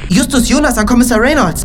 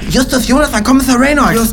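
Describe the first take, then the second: First: The s sounds are spoken clearly without lisp. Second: The s sounds are spoken with a lisp.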